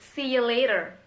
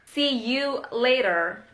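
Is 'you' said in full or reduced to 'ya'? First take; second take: reduced; full. First: The word 'you' is shortened to 'ya'. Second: The word 'you' is said in full.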